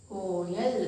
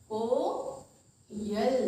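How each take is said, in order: First: Said in the usual way. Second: कोयल stretched very slowly, each sound held; drawn-out example word. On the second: Shown as a demonstration. Teacher to children, dragging the word out slowly. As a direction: draw out कोयल for the class. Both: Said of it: "क्या बनाएंगे?".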